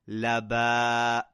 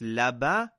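First: The final vowel is drawn out long. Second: The final vowel is short and clipped. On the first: The speaker calls it right. "So we're pulling it because of the alif" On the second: The speaker calls it wrong. "Not just laba"

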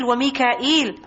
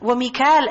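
First: The name is said with three syllables, Mika-eel. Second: The name is said with two syllables, Mi-kal. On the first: "Mikal is another pronunciation for Mikael" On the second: "Mikal is another pronunciation for Mikael"

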